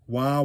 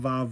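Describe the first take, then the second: First: The word begins with a w sound. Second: The word begins with a v sound.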